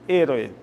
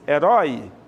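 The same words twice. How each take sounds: First: The stress is on the first syllable. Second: The stress is on the last syllable. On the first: "no espanhol, e" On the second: "A sílaba tônica, rói"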